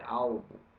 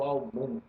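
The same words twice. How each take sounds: First: The stress is on the first syllable. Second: The stress is on the last syllable. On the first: The speaker calls it right. "é álbum. Então a sílaba anterior é tônica" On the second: The speaker calls it wrong. "Não é o álbum"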